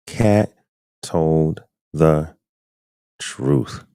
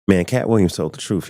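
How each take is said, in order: First: "Cat" "told the" "truth" each set apart with pauses, "truth" pitched up; slow emphatic words. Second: Said in the usual way. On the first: Real, not acted. Streamer to his chat, hammering "Cat told the truth" word by word. Streamer stressing Cat's point.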